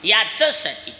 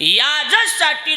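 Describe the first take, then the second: First: The middle consonant is a voiceless 'ch' sound. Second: The middle consonant is a voiced 'j' sound. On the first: This is the form that carries the original meaning. "च च ज नाही" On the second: This is the form used for ease of pronunciation. "मग इथं ज कस काय म्हटलंय?"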